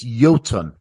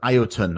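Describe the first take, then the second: First: The name begins with a single 'yo' sound. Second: The name begins with separate 'ee' and 'o' sounds. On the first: The speaker calls it right. "the I and the O is a yo" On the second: The speaker calls it wrong. "most people probably read it as like"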